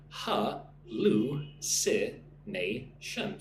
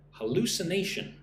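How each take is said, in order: First: ハルシネーション、一音ずつ区切って; "Ha-lu-si-nation" split into five slow syllables. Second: Said in the usual way. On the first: Shown as a demonstration. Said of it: "Listen and repeat". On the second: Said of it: "So five syllables".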